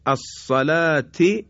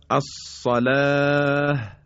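First: الصلاة recited slow as asalati with the final t and vowel sounded; الصلاة slow, full tanwin-style ending ti; connected form, vowel kept. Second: الصلاة recited slow ending on a silent h, aalah; الصلاة drawn out and closed with a breathy h; pausal form with final h. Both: Shown as a demonstration.

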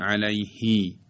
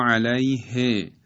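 First: علیهی with a long ī at the end; wrongly lengthened vowel. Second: Slow علیه ending in a short e; short final vowel. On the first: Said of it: "و نمیگوییم". («علیهی» با ایِ کشیده در آخر) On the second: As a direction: end علیه on a brief he. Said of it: "و نمیگوییم علیهی". («علیه» شمرده، با کسرهٔ کوتاه در آخر) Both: Shown as a demonstration.

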